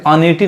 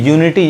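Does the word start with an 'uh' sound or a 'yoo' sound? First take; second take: uh; yoo. First: The word starts with an 'uh' vowel sound. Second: The word starts with a 'yoo' sound. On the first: The speaker calls it wrong. "अनिटी नहीं कहेंगे" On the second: The speaker calls it right. "यूनिटी यानी u ही पढ़ा रहा है"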